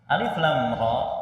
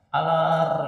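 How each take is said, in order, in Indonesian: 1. Setiap nama huruf dibaca terpisah. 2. Huruf-huruf itu digabung menjadi satu kata. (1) "dibacanya itu per huruf, bukan menjadi satu kata" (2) "jangan sampai ada yang membaca alif lam ra dengan gimana? Alar"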